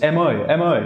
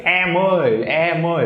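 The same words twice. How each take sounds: First: "Eh, moi" said short and easy, little mouth shaping; a simple, unforced "Eh, moi" call; simple, natural vowel. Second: "Eh, moi" stretched out high with an over-wide mouth; weird, overdone "Eh, moi" call; exaggerated mouth shape. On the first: Teacher shows calling someone over, simple natural vowel. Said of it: "much more simple than that". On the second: Teacher mocks over-shaped calling of someone, exaggerated vowels. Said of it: "That's weird". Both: Shown as a demonstration.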